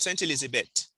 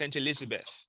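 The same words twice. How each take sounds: First: The name ends in a plain t sound. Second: The name ends in a voiceless th sound. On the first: The speaker calls it wrong. "It's not Saint Elizabeth" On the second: The speaker calls it right. "You need to pronounce the, E- the T H at the end"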